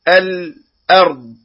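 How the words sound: The voice stops briefly on the l sound. The speaker calls it wrong. "السكت عند إظهار اللام وهذا ليس موضع سكت"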